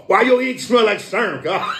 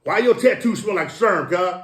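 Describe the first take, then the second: First: Laughing out the question, high and bursting. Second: Said in the usual way. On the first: Real, not acted. Joking to a friend about ink smell, laughing. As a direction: crack up while asking it.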